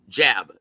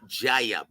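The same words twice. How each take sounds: First: The word is said as one short syllable. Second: The word is drawn out into two syllables. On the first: The speaker calls it right. "One syllable, one syllable, one little word" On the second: The speaker calls it wrong. "pronounces the word jab with two syllables"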